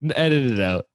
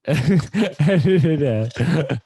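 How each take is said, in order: First: Said in the usual way. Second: Laughing through it, drawn out slowly. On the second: Real, not acted. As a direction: giggle while repeating the request.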